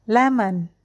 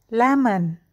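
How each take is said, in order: No difference in how they are said.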